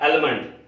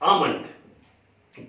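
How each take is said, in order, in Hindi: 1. m से पहले l ध्वनि सुनाई देती है। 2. m से पहले कोई l ध्वनि सुनाई नहीं देती। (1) "लोग बोलते हैं आलमंड ऑयल या आलमंड, वो भी गलत है" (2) "हम सही अगर रूप में बोले तो इसको बोलेंगे आमंड"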